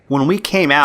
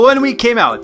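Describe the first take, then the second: First: It is spoken in an American accent. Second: It is spoken in a Nigerian accent. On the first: The speaker calls it wrong. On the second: The speaker calls it right.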